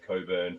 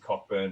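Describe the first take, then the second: First: No k sound is heard in the middle. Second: A k sound is heard in the middle. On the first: It is how the place is actually called. The speaker calls it right. "it's actually pronounced Coburn" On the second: It follows the written spelling. The speaker calls it wrong. "if you look at the spelling, it says Cockburn"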